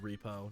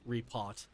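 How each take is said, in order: First: The final T sound is left off. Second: The final T sound is clearly pronounced. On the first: The speaker calls it wrong. "I would pronounce it B R B repo" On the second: The speaker calls it right. "not repot"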